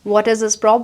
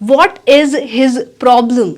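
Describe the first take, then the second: First: The h is dropped and 'is his' merges. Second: The h in 'his' is pronounced separately.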